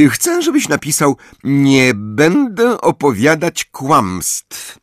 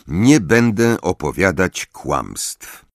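First: High, slow, sugary dictation; sweetly dictating a cruel line; gently. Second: Said in the usual way. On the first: A narrator's reading. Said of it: "oznajmiła łagodnie".

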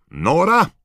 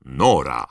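First: High, loud shout with a lift. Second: Loud, falling destination call; firm announcement. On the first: George stepping into the fire, shouting his destination. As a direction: shout it out at a much higher pitch. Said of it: "George krzyknął". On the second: Fred naming his destination as he steps into flames, firmly announced. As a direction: announce it loudly at the speaker's usual pitch. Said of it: "mówiąc". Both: A narrator's reading.

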